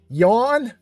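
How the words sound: The word is said with the r dropped. The speaker calls it right. "It's yawn, like Bostonian"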